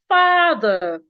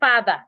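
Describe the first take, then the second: First: The first vowel is long. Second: The first vowel is short. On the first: The speaker calls it right. "Say father" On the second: The speaker calls it wrong. "Don't say father. Father is wrong"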